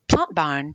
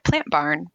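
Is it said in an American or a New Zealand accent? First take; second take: New Zealand; American. First: It is said in a New Zealand accent. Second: It is said in an American accent.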